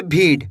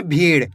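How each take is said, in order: First: भीड़ misread with a hard, stopped ड; hard ड ending. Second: भीड़ ending in a flapped ड़. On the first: Teacher shows students the misreading, hard ड ending in भीड़. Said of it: "ऐसे नहीं पढ़ेंगे". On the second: Teacher shows students the dotted letter, flapped ड़ in भीड़. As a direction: say भीड़ with the tongue flicked for ड़, not a hard ड. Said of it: "बिंदी लगी हुई है उसको तो अड़ा पढ़ेंगे". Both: Shown as a demonstration.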